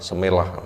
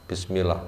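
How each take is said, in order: First: It is said with shortened Javanese-style sounds. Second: It is said with its full Arabic sounds.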